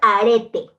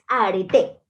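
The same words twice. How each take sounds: First: The stress is not on the final syllable. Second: The stress is on the final syllable. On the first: The speaker calls it wrong. "no es arete" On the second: The speaker calls it right. "es arete, con acento en la E"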